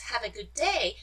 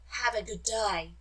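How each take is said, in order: First: It is said in a plain standard accent. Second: It is said in an Australian accent. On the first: "You pronounce" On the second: "but they pronounce it as"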